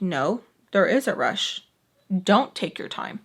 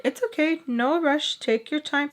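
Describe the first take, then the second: First: Firm contradiction. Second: Higher-pitched, kindly retold voice; reassuring mom. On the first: Retold or imitated. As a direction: imitate someone overruling her mom, pitch kept down. Sam curtly contradicts her mom. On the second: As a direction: imitate a mom saying no hurry. Mom reassures, Sam contradicts.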